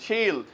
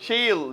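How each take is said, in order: Both takes have the same delivery.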